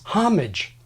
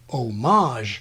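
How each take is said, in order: First: It is said like the English word hostage. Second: It is said closer to the French original. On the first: It is the older, fully English form. "nativized like hostage" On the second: It is the newer, more original-language form. "denativize it"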